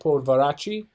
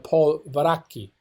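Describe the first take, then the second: First: The middle consonant sounds like ch. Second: The middle consonant sounds like k. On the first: This is the American way of saying it. "in American, you call it" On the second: This is the Italian way of saying it. "the double C and H makes it a k sound"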